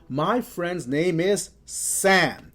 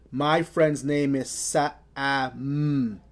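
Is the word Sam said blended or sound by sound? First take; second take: blended; sound by sound. First: Sam is said quickly as one blended word. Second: Sam is said slowly, one sound at a time. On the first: The speaker calls it right. "I have to blend those sounds together rapidly or quickly" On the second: The speaker calls it wrong. "Notice I don't say"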